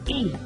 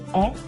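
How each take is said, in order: First: The letter is said as its name. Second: The letter is said as its sound. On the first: "the name is E" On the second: "The sound is E"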